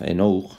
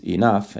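First: Enough read as written, "eh-NO-ookh"; spelling pronunciation. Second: Enough said "ee-NAF"; everyday pronunciation. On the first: Teacher showing how enough is spelt, Spanish letter sounds. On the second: Teacher showing students how enough sounds, real pronunciation. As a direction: say enough with an F at the end. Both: Shown as a demonstration. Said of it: "se escribe, enough".

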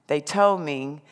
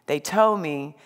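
The two takes are said the same way.

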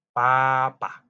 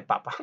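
First: "papá" con fuerza en la última sílaba, pa-PÁ; acento en la última sílaba. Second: "papa" con la fuerza en la primera sílaba, PA-pa; sin acento final. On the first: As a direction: marca bien la PÁ final de "papá". ("papá", acentuado en la segunda sílaba) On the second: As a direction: deja caer suave la segunda sílaba de "papa". ("papa", acentuado en la primera sílaba) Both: Shown as a demonstration. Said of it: "Si le quitamos el acento".

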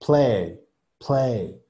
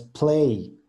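First: "play" on an open E with barely any I; correct pronunciation. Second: "play" drawn out into a final I sound; wrong pronunciation. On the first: Teacher models it for Alison's class, correct short-glide "play". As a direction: keep "play" on the E, no full ee at the end. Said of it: "es play". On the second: Teacher warns class against this version, over-glided "play". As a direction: let "play" glide up into a full ee. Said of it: "no es play". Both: Shown as a demonstration.

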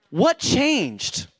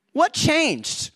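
Both takes have the same delivery.

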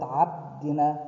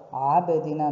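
First: Abdina with the b closed flat, no bounce; without qalqala. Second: Abdina with the b bounced, a light echo after it; with qalqala. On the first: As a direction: swallow the b silently. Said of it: "not abdina". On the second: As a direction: tap the b and release it. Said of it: "touch and come back". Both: Shown as a demonstration.

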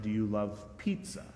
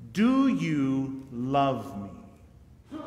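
First: Said in the usual way. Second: Drawn-out question. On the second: Acted. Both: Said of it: "Similar to my question of".

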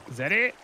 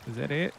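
First: Pressing the question louder; louder repeat. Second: Said in the usual way. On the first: Real, not acted. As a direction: push it a second time, louder.

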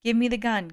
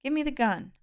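First: Much louder, forceful order; with more force. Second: Higher, firm order; insist, not yet forcing; firm demand. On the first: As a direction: push the demand harder. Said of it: "with more force". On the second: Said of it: "Jason frowned". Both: A narrator's reading.

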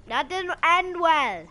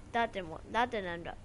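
First: High, drawn-out wail of dismay; loud lament. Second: Said in the usual way. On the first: Real, not acted. Gamer lamenting a failed move, loud drawn-out wail. Raised repeat of the remark.

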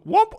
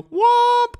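First: Said in the usual way. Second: One long, loud, very high womp; drawn-out womp. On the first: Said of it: "sometimes you don't do". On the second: Shown as a demonstration. Streamer showing a variant of the noise, long falsetto. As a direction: stretch it out in piercing falsetto. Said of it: "but you do".

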